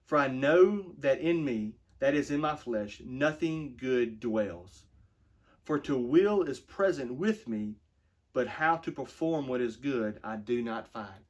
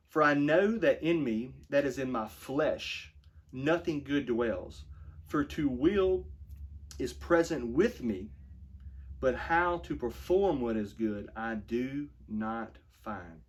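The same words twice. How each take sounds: First: Slower, more emphatic rereading. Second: Slow, weighty reading of the verse; slow scripture reading. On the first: Pastor rereading the verse to drive it home, slow and emphatic. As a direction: lean harder into know and nothing. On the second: Pastor reading Romans to his flock, slow and solemn. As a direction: let each phrase land slowly. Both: Shown as a demonstration. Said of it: "let me read that again".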